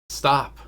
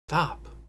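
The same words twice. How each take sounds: First: It is said in a loud, booming voice. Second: It is said in a weak, unbooming voice.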